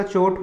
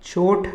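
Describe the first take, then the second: First: चोट ending in unaspirated t; correct चोट. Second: चोट ending in aspirated "th"; wrong चोट. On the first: Teacher giving correct form, चोट as "chot". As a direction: close चोट on a plain "t". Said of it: "होता है". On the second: Teacher rejecting the error, चोट as "choth". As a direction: puff air after चोट, "choth". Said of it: "नहीं होता". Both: Shown as a demonstration.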